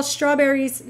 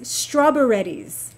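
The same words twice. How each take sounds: First: Said in the usual way. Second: "strawberries" said as straw-buh-REDDIES; child's mispronunciation. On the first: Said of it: "when she was little, she would call". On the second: Retold or imitated. Mother quoting her little daughter, "strawberries" mispronounced as strawberreddies. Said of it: "she would call strawberries strawberries".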